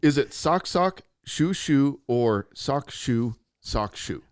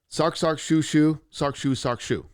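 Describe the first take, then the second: First: It is read slowly. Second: It is read very fast.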